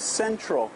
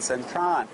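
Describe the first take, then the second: First: The word ends with an L sound. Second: The word ends with an N sound. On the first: "it actually is Central Department Store" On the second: "they don't pronounce the L, they pronounce it as an N"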